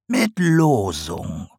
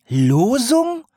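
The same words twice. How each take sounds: First: Sly slow reveal. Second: Shocked owl echo. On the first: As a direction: savour "Losung" slowly as the potter. Sarg answers slowly. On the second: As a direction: yelp "Losung" up in shock. Owl echoes. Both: A narrator's reading.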